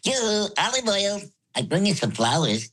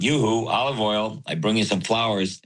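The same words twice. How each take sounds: First: It is said in a high voice. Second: It is said in a low voice.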